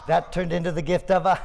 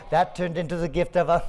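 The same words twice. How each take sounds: The two takes are said the same way.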